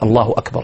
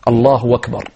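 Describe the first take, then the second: First: Akbar starts with a clear glottal stop. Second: Akbar starts with a w sound. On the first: The speaker calls it right. "صريحة" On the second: The speaker calls it wrong. "يضع واو يعني من غير ألف"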